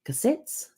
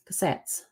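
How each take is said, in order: First: Cassettes? asked with a high questioning rise, quiet; unsure guess. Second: Cassettes. whispered with a falling, certain tune; settled answer. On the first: Recalling the cafe's name, quiet rising guess. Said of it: "that's the name of the flour I used". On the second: Remembering the cafe's name, whispered confirmation. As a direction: confirm Cassettes. under the breath. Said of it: "It's called Cassettes". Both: Real, not acted.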